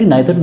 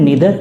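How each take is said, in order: First: The first vowel sounds like 'eye'. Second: The first vowel sounds like 'ee'. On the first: This is the British English form. "British English में इसे आइदर और या फिर नाइदर nor बोला जाता है" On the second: This form is also acceptable. "नीदर nor भी बोल सकते हैं"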